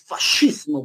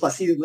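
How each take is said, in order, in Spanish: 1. La consonante del medio suena como sh. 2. La consonante del medio suena como s. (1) "cuando tú leas ese C, se pronuncia como sh" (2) "no es fascismo"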